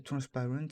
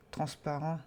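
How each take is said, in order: First: "transparent" in a rough English accent; French speaker's go at English "transparent". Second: Said in the usual way. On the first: Shown as a demonstration. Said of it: "avec un accent anglais". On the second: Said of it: "Je veux pas faire avec un accent anglais".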